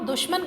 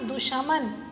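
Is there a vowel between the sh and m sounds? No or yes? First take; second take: no; yes. First: The sh runs straight into the m. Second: An extra vowel sits between sh and m. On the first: The speaker calls it right. "किसी को हम दुश्मन कहते हैं" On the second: The speaker calls it wrong. "ना कि दुशामन"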